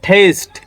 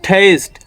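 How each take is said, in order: The two takes are said the same way.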